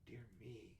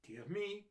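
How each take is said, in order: First: Much softer inner thought; thought to herself. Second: Higher voiced little doctor, dismayed. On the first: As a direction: murmur it under the breath. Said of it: "she thought". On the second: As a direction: sigh it out as the doctor. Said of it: "said Doctor Pickaflea". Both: A narrator's reading.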